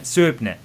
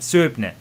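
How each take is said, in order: First: The name is said as written, like 'Soo-ib-nee'. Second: The same.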